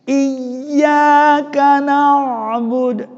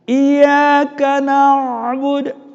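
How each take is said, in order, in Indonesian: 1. Bunyi y dibaca panjang dan ganda. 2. Bunyi y dibaca pendek dan lemah, tidak ganda. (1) "Harus ditamkinkan, dinampakkan ya-nya" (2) "kalau kita baca secara lemas tanpa bertasydid"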